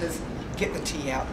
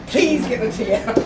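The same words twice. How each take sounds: First: Said in the usual way. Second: Louder, slow, begging for the tea; hammed-up plea as if in a crisis; mock plea. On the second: Storyteller pretends to beg family in a disaster, mock desperate plea.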